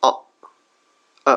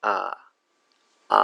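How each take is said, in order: First: অ then আ, both short and weak; weak schwa. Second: আ said open and full with a spread mouth; normal vowel. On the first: Teacher contrasting schwa with normal আ. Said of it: "ওইটা উইক". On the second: Teacher contrasting normal আ with schwa. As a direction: give আ its normal full length. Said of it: "সাধারণভাবে আমরা". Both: Shown as a demonstration.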